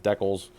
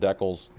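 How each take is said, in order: First: The word is said the Canadian way. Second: The same.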